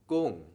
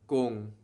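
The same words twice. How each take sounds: First: The word is said on a falling tone. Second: The word is said on a level tone. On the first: The speaker calls it right. "we get the falling tone" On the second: The speaker calls it wrong. "instead of saying gung"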